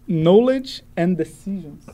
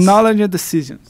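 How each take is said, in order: First: It is said slowly. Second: It is said fast.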